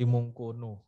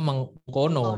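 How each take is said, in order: First: The vowels are pronounced as u sounds. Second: The vowels are pronounced as o sounds. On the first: It follows the manuscript's written vowel marks. "penulisannya itu mungkunu" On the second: It is the word's actual reading. "Tapi bacaannya mengkono"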